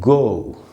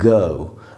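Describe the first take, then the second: First: It is said with an American English vowel. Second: It is said with a British English vowel. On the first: "American में है गो" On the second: "British English में है गो"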